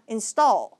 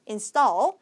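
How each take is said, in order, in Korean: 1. t는 숨을 내뿜는 거센소리예요. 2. t는 숨을 내뿜지 않는 된소리예요. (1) "install이 아니라" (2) "떨구다 할 때 떨"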